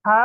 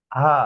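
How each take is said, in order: First: "হা" squeezed from mid-throat; throat-pressed h. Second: "হা" fully open, no throat pressure. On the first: Teacher showing the difference, throat-pressed "হা". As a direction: tighten the mid-throat through "হা". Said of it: "এটা গলার মাঝখানে চাপ দিয়ে". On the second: Teacher showing the difference, fully open "হা". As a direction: let "হা" flow from an open throat. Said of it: "একদম open". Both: Shown as a demonstration.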